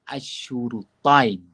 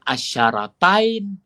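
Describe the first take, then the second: First: The first two vowels are 'u' sounds. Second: The first two vowels are 'a' sounds. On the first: "membaca dengan baris hadapan kedua-duanya" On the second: "Dibaca dengan baris atas pada huruf shin"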